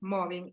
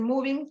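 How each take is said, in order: First: The word sounds like 'mobbing'. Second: The word sounds like 'moving'. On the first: The speaker calls it right. "pero no, porque es mobbing" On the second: The speaker calls it wrong. "a veces lo pronuncian mal y le dicen moving"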